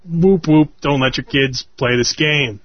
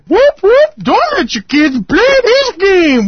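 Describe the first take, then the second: First: It is said flatly, without enthusiasm. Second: It is said with lively enthusiasm.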